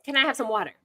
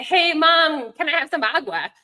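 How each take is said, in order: First: Mom gently correcting with "water"; mom modeling English. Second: Lightly voiced child asking, higher, saying "agua"; playful child slipping in "agua"; child mixing languages. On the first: Retold or imitated. Mom repeating the request with "water" to model English. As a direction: prompt the kid to say "water" instead of "agua". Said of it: "I'd be like". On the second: Child asking mom for "agua" in mixed language, lightly voiced. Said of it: "if they would say".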